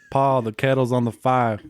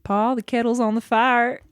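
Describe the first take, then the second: First: Bad Southern accent. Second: A light Southern accent, on request. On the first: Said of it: "That was bad". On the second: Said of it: "What do you want me to say?". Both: Shown as a demonstration.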